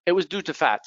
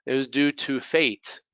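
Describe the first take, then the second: First: "fat" with a short open A; minimal-pair demo, flat short A in "fat"; fat vowel. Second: "fate" with a long ay; slower line, "fate" rhyming with late; minimal-pair demo, ay glide in "fate"; fate vowel. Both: Shown as a demonstration. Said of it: "different things that happen here".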